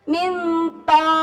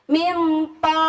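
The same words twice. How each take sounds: No difference in how they are said.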